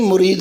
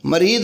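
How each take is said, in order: First: The first vowel is a 'u' sound. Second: The first vowel is an 'a' sound. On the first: The speaker calls it right. "मुरीद लफ्ज़ है" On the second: The speaker calls it wrong. "मरीद नहीं"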